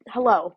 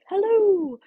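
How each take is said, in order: First: It is said in her normal voice. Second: It is said like Mrs. Doubtfire.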